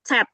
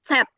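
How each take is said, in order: First: The letter begins with a ts sound. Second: The same.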